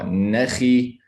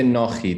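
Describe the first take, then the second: First: The vowel sounds light and bright. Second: The vowel sounds heavy and dark. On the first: The speaker calls it right. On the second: The speaker calls it wrong.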